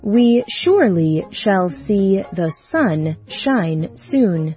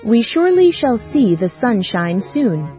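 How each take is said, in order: First: It is said at a slower pace. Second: It is said at the fastest pace.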